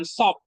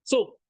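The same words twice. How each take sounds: First: "sop" said with an open o sound; "sop" as the mistaken o pronunciation; wrong vowel. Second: "Sup" said with a clear u, raised; "Sup" pronounced with u as the right form; correct vowel. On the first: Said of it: "bukan sop". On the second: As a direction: say "Sup" with u, not o. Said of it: "ingat sup itu ya". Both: Shown as a demonstration.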